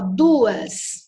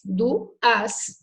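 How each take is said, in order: First: Said in the usual way. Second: "duas" split as du, as; separated syllables. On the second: Shown as a demonstration. Teacher demonstrating a hiatus, syllables separated. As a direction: break "duas" into two syllables with a gap.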